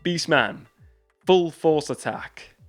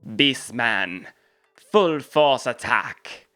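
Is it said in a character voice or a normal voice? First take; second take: normal; character. First: It is said in a normal speaking voice. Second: It is said in a put-on character voice. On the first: "I'll just do it normal" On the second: "I'm going to try and do the voice"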